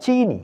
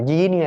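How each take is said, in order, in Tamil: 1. இந்தச் சொல் s ஒலியில் தொடங்குகிறது. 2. இந்தச் சொல் j ஒலியில் தொடங்குகிறது. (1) "சீனி என்று சொன்னால் போதும்" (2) "ஜீனி அல்ல"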